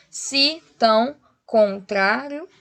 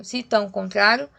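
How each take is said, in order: First: "se... tão... con-trário", slow separate beats; counting poetic syllables. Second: Said in the usual way. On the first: Shown as a demonstration. Teacher counting syllables likewise, slow separated beats. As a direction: break "se tão contrário" apart slowly. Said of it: "E do mesmo modo". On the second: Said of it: "esse rio é junto".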